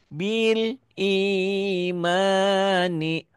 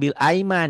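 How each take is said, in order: First: The word after bil begins with an ee sound. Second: The word after bil begins with an ai sound. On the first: The speaker calls it right. "Ini I ya" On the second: The speaker calls it wrong. "Bukan bil aiman"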